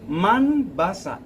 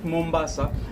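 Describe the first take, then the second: First: The first syllable sounds like 'man'. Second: The first syllable sounds like 'mom'. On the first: This is the original Arabic form of the name. The speaker calls it right. "the correct word for this island, it was Manbasa" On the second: This is the form altered by British speakers. The speaker calls it wrong. "you don't pronounce it Mombasa"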